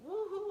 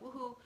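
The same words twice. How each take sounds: First: It sounds genuinely joyful and excited. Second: It sounds forced and faked.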